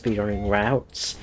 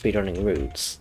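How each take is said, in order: First: The word 'routes' has an American pronunciation. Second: The word 'routes' has a British pronunciation. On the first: "I've distinguished it as" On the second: "technically I should say it as"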